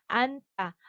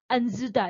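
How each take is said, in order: First: Only one consonant of the cluster is sounded. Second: Both consonants of the cluster are sounded. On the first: The speaker calls it right. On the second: The speaker calls it wrong.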